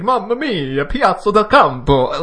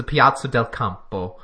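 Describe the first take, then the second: First: Mamma mia, Piazza del Campo, high, loud and heavily emphasized; overdone fake Italian. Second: A light touch of Italian on Piazza del Campo, not overdone; mild fake Italian. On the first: Host mocking his own pronunciation, in an overdone Italian accent. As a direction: ham up the Italian, leaning hard on every syllable. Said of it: "if you're supposed to emphasize that much". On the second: Host naming the race finish, in a mild fake Italian accent. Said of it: "that's just my fake Italian". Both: Shown as a demonstration.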